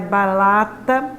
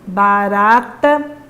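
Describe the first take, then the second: First: The middle consonant is an L sound. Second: The middle consonant is an R sound. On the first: The speaker calls it wrong. "sai balata" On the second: The speaker calls it right. "onde sai o som barata"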